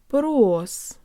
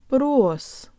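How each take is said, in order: The two takes are said the same way.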